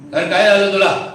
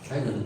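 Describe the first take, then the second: First: It is said in an arrogant tone. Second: It is said in a plain, simple tone.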